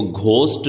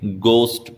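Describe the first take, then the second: First: घोस्ट with an aspirated GH at the start; H wrongly sounded. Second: Hard plain G as in "gost", no puff of air; silent H. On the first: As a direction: mispronounce it as घोस्ट, puffing air after the G. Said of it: "इसको घोस्ट नहीं बोलेंगे". (घोस्ट, 'घ' की आवाज़ के साथ) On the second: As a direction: say घोस्ट as "gost", dropping the H. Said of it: "घोस्ट बोलेंगे". (घोस्ट को 'गोस्ट' बोलें, 'ह' के बिना) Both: Shown as a demonstration.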